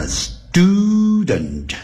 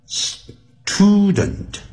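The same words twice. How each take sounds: First: Student said "s-DOO-dent", long oo; slow student with an unaspirated t. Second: Student split as "s-TOO-dent" with a puffed t; over-aspirate the t in student; wrong-way student, hard breathy t after the s; aspirated T. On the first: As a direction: soften the t of student to a d. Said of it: "那个T要念成". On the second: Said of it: "而不是念成". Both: Shown as a demonstration.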